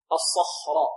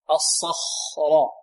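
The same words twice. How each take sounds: First: Said in the usual way. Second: الصخرة drawn out very slowly, the خ clear and the lips not rounded; الصخرة spelled out slowly for the students; slow careful demo. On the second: Shown as a demonstration. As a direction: stretch الصخرة out slowly so the خ is heard. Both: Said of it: "هكذا خاء ننطقها بدون أن نضم الشفتين".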